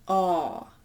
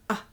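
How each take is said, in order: First: The vowel is long and rounded. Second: The vowel is short and open. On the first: "the longer one is A" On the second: "The short one is A"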